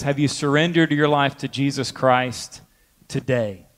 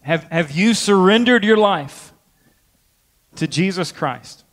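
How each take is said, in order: First: Pause, then drop low and soft on "today"; stress on today. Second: Raised pitch on "have you surrendered", falling on "Jesus Christ"; emphatic revival appeal. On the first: Preacher challenging believers, "today" set apart low and deliberate. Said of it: "add one word onto that question". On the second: Preacher asking as at revival's close, emphatic "surrendered". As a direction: press "surrendered" as a solemn altar call. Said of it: "ask that question in that way". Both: Shown as a demonstration.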